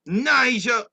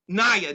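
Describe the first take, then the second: First: The name is said with a J sound. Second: The name is said without a J sound. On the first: The speaker calls it wrong. "did I say it right?" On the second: The speaker calls it right. "no pronouncing the J"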